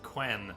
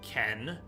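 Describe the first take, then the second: First: The word begins with a KW sound. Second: The word begins with a plain K sound. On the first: The speaker calls it right. "it's not Ken, Jay, it's Quen" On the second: The speaker calls it wrong. "I read it as Ken"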